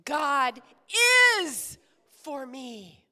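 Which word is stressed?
is. The word is is stressed. "Now we're going to emphasize is"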